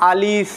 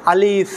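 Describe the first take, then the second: First: আলিফ said loosely, the way beginners say it; wrong alif. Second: আলিফ with a clear breathy f, air pushed out; আলিফ said properly, letting the air escape on the f; correct alif. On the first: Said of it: "অনেকে যারা পারে না তারা কি বলবে". (ভুলভাবে আলিফ, শেষে নরম ফ) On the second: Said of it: "বাতাস বের হতে হবে". (সঠিক আলিফ, বাতাস বের করে) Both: Shown as a demonstration.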